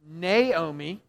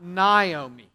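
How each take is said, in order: First: The first syllable sounds like 'nay'. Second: The first syllable does not sound like 'nay'. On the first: The speaker calls it right. "it's pronounced Naomi" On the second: The speaker calls it wrong. "not Naomi"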